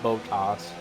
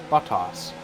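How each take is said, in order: First: The first syllable sounds like 'bow'. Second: The first syllable sounds like 'bot'. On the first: The speaker calls it right. "that's why I say it like Botas, like Bo, B O W" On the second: The speaker calls it wrong. "it sounds a lot more like buttocks than it does his name"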